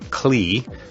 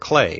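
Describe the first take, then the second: First: The name is sounded out just as spelled. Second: The name is sounded unlike its spelling. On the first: The speaker calls it wrong. "just as it's spelled" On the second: The speaker calls it right. "a proper pronunciation"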